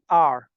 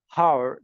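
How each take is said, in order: First: The word begins with no h sound. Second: The word begins with an h sound. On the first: The speaker calls it right. "H is silent. R" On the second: The speaker calls it wrong. "this word is pronounced by some students wrong. Har. This is wrong"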